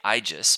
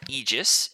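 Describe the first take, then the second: First: The first vowel is an 'eye' sound. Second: The first vowel is not an 'eye' sound. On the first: "AE is pronounced as an I sound" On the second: "or Aegis, if you want to"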